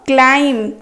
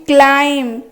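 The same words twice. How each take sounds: No difference in how they are said.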